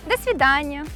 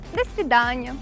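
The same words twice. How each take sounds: The two takes are said the same way.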